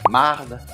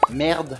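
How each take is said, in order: First: The vowel sounds like 'ah'. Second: The vowel sounds like 'eh'.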